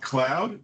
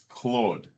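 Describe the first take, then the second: First: The vowel sounds like 'ow' in cow. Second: The vowel sounds like 'aw' in saw. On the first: The speaker calls it wrong. "It's not cloud" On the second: The speaker calls it right. "it's Claude"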